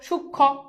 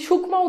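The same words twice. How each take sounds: First: The 'm' sound is dropped, ending in doubled 'kh'. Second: The 'm' sound is pronounced at the end. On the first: The speaker calls it right. "সুখ, তারপর কি খকার খো, সূক্ষ্ম" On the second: The speaker calls it wrong. "তুমি কি সূক্ষ্ম উচ্চারণ করো? না"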